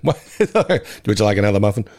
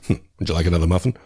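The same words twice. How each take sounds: First: The character voice is a loose, poor imitation. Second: The character voice is a close, convincing imitation. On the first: The speaker calls it wrong. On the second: The speaker calls it right.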